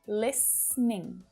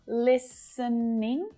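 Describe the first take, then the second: First: The word is said with two syllables. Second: The word is said with three syllables. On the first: "native speakers will often reduce it down to just two syllables" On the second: "it's perfectly okay to use three syllables"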